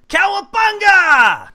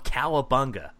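First: The word is yelled loudly with high energy. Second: The word is said flatly, without much energy. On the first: The speaker calls it right. "There we go" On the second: The speaker calls it wrong. "I said that wrong"

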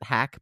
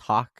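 First: The vowel sounds like the one in 'back'. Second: The vowel sounds like the one in 'bought'. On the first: The speaker calls it wrong. "they would always pronounce it Hack" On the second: The speaker calls it right. "but it's pronounced Hawk"

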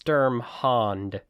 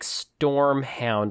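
First: The first syllable sounds like 'sturm'. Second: The first syllable sounds like 'storm'. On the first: The speaker calls it right. "But no, it's Sturmhound" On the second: The speaker calls it wrong. "It does sound like Stormhound"

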